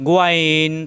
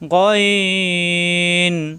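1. স্বরটি গোল ঠোঁটে বলা হয়। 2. স্বরটি ঠোঁট গোল না করে বলা হয়। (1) "আমরা যদি বলি গোয়াইন, তাহলে ঠোঁট গোল হয়ে যায়" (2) "হবে গইন"

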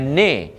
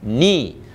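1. Vokalnya terdengar seperti 'eh'. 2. Vokalnya terdengar seperti 'ee'. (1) "Jangan ne" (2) "Bagi jadi betul-betul baris bawah ni"

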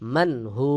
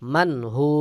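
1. শেষ শব্দটি দীর্ঘ 'u' স্বরধ্বনি দিয়ে শেষ হয়। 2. শেষ শব্দটি দীর্ঘ 'u' স্বরধ্বনি দিয়ে শেষ হয়।

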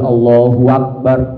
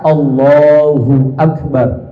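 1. Bunyi w menghubungkan Allahu dengan Akbar. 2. Akbar mengikuti Allahu tanpa bunyi w tambahan. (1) "Enggak boleh" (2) "Harus benar-benar"

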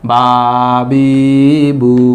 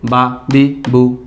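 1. হরকতগুলো টেনে লম্বা করে বলা হয়। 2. হরকতগুলো তাড়াতাড়ি আর ছোট করে বলা হয়। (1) "এখানে টানা যাবে না। যেমন বা বি বু, এভাবে বলা যাবে না" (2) "হরকতের উচ্চারণ অবশ্যই তাড়াতাড়ি করতে হবে"

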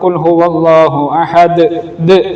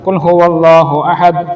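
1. അവസാനത്തെ d ഒരു വ്യക്തമായ കുതിപ്പോടെ പുറത്തുവിടുന്നു. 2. അവസാനത്തെ d കുതിപ്പില്ലാതെ പരന്ന് നിലയ്ക്കുന്നു. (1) "വ്യക്തമാക്കണം" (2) "അങ്ങനെ പറഞ്ഞാൽ പോരാ"

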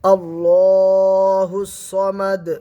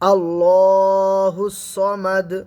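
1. শেষের দাল একটি কলকলা ধ্বনি, ধাক্কার মতো প্রতিধ্বনি হয়। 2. শেষের দাল একটি কলকলা ধ্বনি, ধাক্কার মতো প্রতিধ্বনি হয়।

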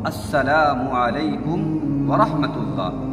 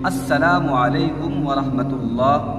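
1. अभिवादन 'salamu' से पहले 'as' से शुरू होता है। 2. अभिवादन 'salamu' से पहले 'as' से शुरू होता है।

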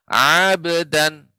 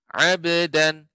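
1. Vokal pertama dipanjangkan. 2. Vokal pertama dibaca pendek. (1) "jangan sampai ainnya eh, terasa lebih panjang. Abdan tidak" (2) "akan tapi abdan"

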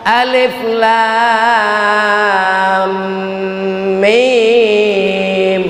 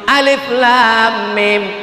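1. Nama hurufnya dipanjangkan dengan dengung. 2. Nama hurufnya pendek, tanpa dengung. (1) "Nye panjang pakai dengung" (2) "Salah tu pak"

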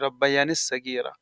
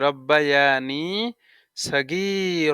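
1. 'ni' পরের 's' ধ্বনির সাথে মিশে যায়। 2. 'ni' পরের শব্দের আগে পরিষ্কারভাবে শেষ হয়। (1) "এই নি এই সদের সাথে লাগবে না" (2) "কিন্তু এখানে শুদ্ধ কি, রব্বায়ানি"

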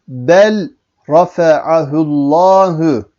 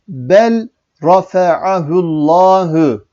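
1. L sesi r'den önce okunur. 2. L sesi r'den önce okunur.

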